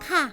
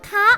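First: The syllable is said with a falling tone. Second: The syllable is said with a high tone. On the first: It politely acknowledges or agrees. "คำว่าค่ะเป็นเสียงโทมีความหมายเป็นการขานรับ" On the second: It marks a question. "คำว่าคะเป็นเสียงตรีมีความหมายเป็นคำถาม"

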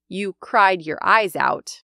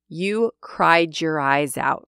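First: The D and Y are pronounced as separate sounds. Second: The D and Y blend into a J sound. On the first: "I could also say" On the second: "how the D next to the Y sounded like a j"

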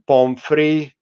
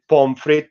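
First: The word ends without a t sound. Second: The word ends with a t sound.

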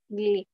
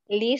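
First: It is said with a nasal gli sound. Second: It is said with a plain l sound. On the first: This is another regional way of saying it. "pero es sonido nasal" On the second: This is one regional way of saying it. "Algunos lo pronuncian como li"

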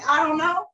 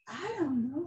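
First: It is said in a curt, blunt tone. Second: It is said in a calm, gentle tone. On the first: The speaker answers disrespectfully. The speaker calls it wrong. "But just to say I don't know" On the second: The speaker answers respectfully. The speaker calls it right. "you better say it with some, you know, very calm"

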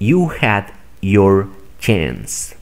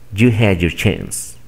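First: Every word is pronounced fully and separately. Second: The words are reduced and run together. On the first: "Primero voy a pronunciar de manera formal" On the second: "Aplicando esta estrategia"

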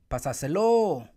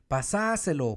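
First: The stress is on the fourth syllable. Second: The stress is on the second syllable.

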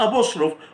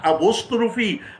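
First: The word ends on the 'f' sound, no vowel. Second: The word ends with an 'ee' vowel after 'f'. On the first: The speaker calls it wrong. "في ناس بتنطقها أبوستروف" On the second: The speaker calls it right. "النطق الصح أبوستروفي"

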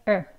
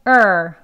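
First: The vowel is said weakly and lightly. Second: The vowel is said strongly and forcefully. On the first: The speaker calls it right. "그래서 이거는 약하게 er" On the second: The speaker calls it wrong. "강하게 er, er 하시면 안 되는 발음이에요"

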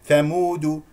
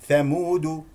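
The two takes are said the same way.

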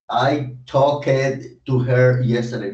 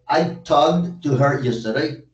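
First: The -ed ending is said as an extra syllable. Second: The -ed ending adds no extra syllable. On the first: The speaker calls it wrong. "yo no puedo decir" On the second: The speaker calls it right. "Simplemente es como pronunciar el presente simple"

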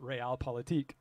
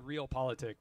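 First: It is said as one German word. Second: It is read like two English words. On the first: The speaker calls it right. "but you pronounce it Realpolitik" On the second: The speaker calls it wrong. "It looks like real politic"

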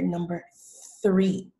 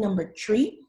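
First: The word starts with a TH sound. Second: The word starts with a plain T sound. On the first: The speaker calls it right. "I need to hear number 3" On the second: The speaker calls it wrong. "instead of saying number tree"

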